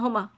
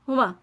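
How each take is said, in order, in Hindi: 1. m की आवाज़ एक है और छोटी है। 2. m की आवाज़ एक है और छोटी है।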